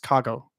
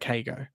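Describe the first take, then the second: First: The name is said in a Japanese way. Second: The name is said in a Western way. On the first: The speaker calls it right. "It's actually pronounced Kago" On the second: The speaker calls it wrong. "That's like my typical Western kind of take on his name"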